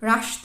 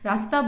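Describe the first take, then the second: First: The middle hissing sound is 'sh'. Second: The middle hissing sound is 's'. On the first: The word sounds foreign, not Bengali. The speaker calls it wrong. "রাস্তা এরকম বললে কিন্তু সেই জিনিস সেই মাধুর্য কিন্তু থাকবে না" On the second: The word sounds natural in Bengali. The speaker calls it right. "দন্তেশ্বয়ের উচ্চারণ"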